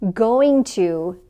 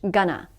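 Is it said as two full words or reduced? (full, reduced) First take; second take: full; reduced. First: Both words are said fully and separately. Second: The words blend into one reduced word.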